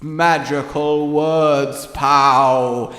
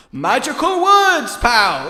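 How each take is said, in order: First: Intoning voice. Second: High, loud game show announcement; game show host. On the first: Shown as a demonstration. Showing how a spell should be said, intoning voice. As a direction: intone it slowly like casting a spell. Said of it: "do it in the intoning voice". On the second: Acted. Trying to cast a spell, sounds like a game show host. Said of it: "announcement of a game show host".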